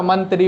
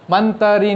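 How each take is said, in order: First: मंत्री said as "mantri" with a tight त्र cluster; मंत्री with no vowel between त and र; correct pronunciation. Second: मंत्री said as "man-te-ri" with an extra vowel; मंत्री with a vowel between त and र; wrong pronunciation. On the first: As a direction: say मंत्री in two syllables, man-tri. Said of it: "मंत्री नहीं होता". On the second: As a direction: split मंत्री into three syllables, man-te-ri. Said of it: "मंत्री होता है". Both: Shown as a demonstration.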